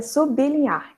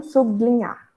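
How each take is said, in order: First: "sublinhar" as su-bi-li-nhar, b apart from l; correct pronunciation. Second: "sublinhar" as su-bli-nhar, b and l blended; incorrect blended pronunciation. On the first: Teacher models the correct form, b split from l. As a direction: separate the b from the l in "sublinhar" with a small i. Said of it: "a pronúncia correta é". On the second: Teacher shows the form to avoid, blended su-bli-nhar. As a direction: run "bl" together in "sublinhar". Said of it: "e não sublinhar". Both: Shown as a demonstration.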